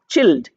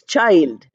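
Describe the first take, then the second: First: The vowel sounds like 'ee'. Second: The vowel sounds like 'eye'. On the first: The speaker calls it wrong. "I is not pronounced as E. It's not chilled" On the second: The speaker calls it right. "It is child. I is written and it's pronounced as I"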